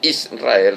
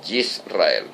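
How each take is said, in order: First: Israel said with a clean i, is-ra-EL; Spanish Israel. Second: Yisrael with a y start, slow and soft; Hebrew Yisrael. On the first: Preacher giving the form that is not Hebrew. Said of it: "No es". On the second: Preacher correcting to the Hebrew form. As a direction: Yisrael said yis-ra-EL, Hebrew-style. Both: Shown as a demonstration.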